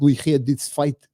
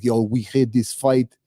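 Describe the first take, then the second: First: Slow Russian accent, second attempt; retry of the Russian accent. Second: Slow, put-on Russian accent; drawn-out imitation of a Russian accent; Red Guardian Russian accent. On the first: Vlogger redoing his doubtful Russian accent impression, slow Russian accent. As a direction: try the Russian accent again, slowly. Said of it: "I don't know if that was a good Russian accent". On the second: Vlogger imitating a character recalling his old fight, slow Russian accent. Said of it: "he talks with a Russian accent".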